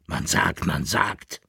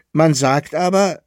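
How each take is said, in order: First: Aping a stranger, softer and lower; mild mocking echo; mocking imitation. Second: Said in the usual way. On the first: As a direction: mimic him with scorn. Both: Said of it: "äffte ihn der Kaplirsch nach".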